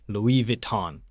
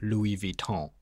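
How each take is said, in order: First: It is said with an American accent. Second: It is said with a French accent.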